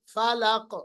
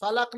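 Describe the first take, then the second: First: फलक with the final क echoed; qalqalah demo. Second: फलक with a dead क, no bounce; wrong pronunciation demo. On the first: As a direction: bounce off the क of फलक. (क़लक़ला के साथ सही फलक) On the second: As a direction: cut फलक short on the क. (बिना क़लक़ला के ग़लत फलक) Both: Shown as a demonstration. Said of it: "फलक नहीं".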